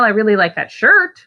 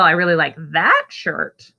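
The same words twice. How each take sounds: First: The word "shirt" carries the main stress. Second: The word "that" carries the main stress. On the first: The shirt is preferred over the pants. "The pants are hideous, but I like the shirt" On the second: This shirt is preferred over the other shirt. "not so much the other one"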